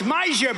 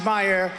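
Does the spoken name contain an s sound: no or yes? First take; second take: yes; no. First: The name is said with an s sound. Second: The name is said without an s sound. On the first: This is how the spelling looks to the speaker. The speaker calls it wrong. "It's Meisner" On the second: This is how the name is really pronounced. The speaker calls it right. "but it's actually pronounced Meyer"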